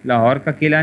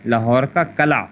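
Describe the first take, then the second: First: Lahore کا قلعہ with قلعہ said kila; قلعہ in Lahore کا قلعہ voiced kila; wrong pronunciation. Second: Lahore کا کلا with کلا said kala; teacher models کلا as kala; کلا as kala, carefully said; correct pronunciation. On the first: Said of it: "نہیں ہوتا". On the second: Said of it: "Lahore کا قلعہ نہیں ہوتا". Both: Shown as a demonstration.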